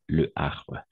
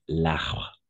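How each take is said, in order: First: The article's vowel is kept before arbre. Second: The article's vowel is dropped, linking into arbre. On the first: "c'est le arbre" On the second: "on va supprimer une voyelle"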